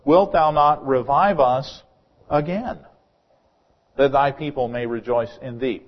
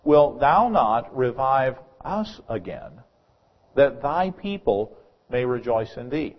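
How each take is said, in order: First: "again" set apart by pauses and lifted in pitch; pause, then punch the word "again"; stress on AGAIN. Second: "us" drawn out and set apart in a slow verse; stress on US. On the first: Preacher rereads the same verse to show a return to a former state, stress on "again". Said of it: "emphasis on a different word". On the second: Preacher quotes the verse to show revival begins with God's people, stress on "us". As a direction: lean slowly on "us" and "thy people". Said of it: "only a different emphasis, or emphasis on a different word". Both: Shown as a demonstration.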